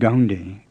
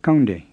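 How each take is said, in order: First: It starts with a voiced English G sound. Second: It starts with a plain K without breath. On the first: The speaker calls it wrong. "with an English G" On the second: The speaker calls it right. "with a plain K"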